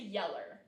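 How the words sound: The word ends in an 'er' sound. "they'll be pronounced with um, an E R"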